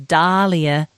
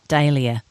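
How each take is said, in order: First: The first syllable sounds like the name Dahl. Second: The first syllable does not sound like Dahl. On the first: The speaker calls it right. "Pronounce the name the same as Roald Dahl. Therefore, the correct pronunciation is dahlia" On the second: The speaker calls it wrong. "not dahlia"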